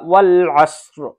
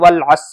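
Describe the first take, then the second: First: The word ends with a clear r sound. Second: The word ends without an r sound. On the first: The speaker calls it right. "रा की भी आवाज आएगी" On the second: The speaker calls it wrong. "ऐसा नहीं वल अस कह दिया। तो वल अस कहेंगे तो सही नहीं होगा।"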